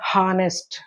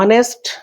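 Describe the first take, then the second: First: The word starts with an audible h sound. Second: The word starts with a vowel, no h sound. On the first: The speaker calls it wrong. "It's not హానెస్ట్" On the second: The speaker calls it right. "హెచ్ silent అక్కడ, ఆనెస్ట్ అనే అనాలి"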